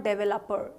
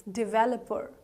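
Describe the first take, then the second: First: "developer" as DEV-el-up-er; mispronounced developer. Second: "developer" as di-VEL-uh-per; correct developer. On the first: Teacher warning learners off wrong developer, mispronounced. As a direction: begin "developer" with a stressed DEV. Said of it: "It's not developer". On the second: Teacher giving learners the right job title, correctly pronounced. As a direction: stress the second syllable of "developer". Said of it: "Developer is the right pronunciation". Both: Shown as a demonstration.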